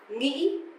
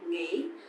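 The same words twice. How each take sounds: First: Northern accent, with the tone said more sharply. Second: Southern accent, with the tone said more softly. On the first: "the northern accent" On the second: "the southern um, accent, they would say nghĩ, a bit softer"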